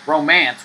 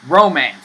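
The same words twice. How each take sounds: First: The stress is on the second syllable. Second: The stress is on the first syllable. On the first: The speaker calls it wrong. "we don't pronounce romance like romance" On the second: The speaker calls it right. "We pronounce it like romance on the first syllable"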